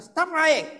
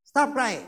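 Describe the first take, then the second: First: Loud, high angry shout; father's scolding yell at his toddler; retold shout. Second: Said in the usual way. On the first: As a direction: yell it at the crying child. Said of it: "the more I shouted".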